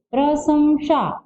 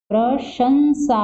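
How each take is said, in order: First: प्रशंसा read slowly as the misspelt प्रसंशा; wrong form read out. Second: प्रशंसा slowly with श first, then ंसा; correct form. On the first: Teacher reads the misspelt word slowly to students. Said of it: "ये भी गलत है". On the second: Teacher gives students the corrected spelling aloud. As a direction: say प्रशंसा the right way, deliberately. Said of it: "प्रशंसा होता है". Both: Shown as a demonstration.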